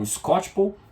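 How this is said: The name is said with American English sounds. This is how people in the United States say it. "lá nos Estados Unidos eles falam Skocpol"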